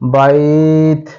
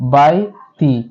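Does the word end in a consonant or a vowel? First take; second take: consonant; vowel. First: The word ends on a bare t consonant. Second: The word ends with a short i vowel. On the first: The reader stops at this word. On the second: The reader continues without stopping.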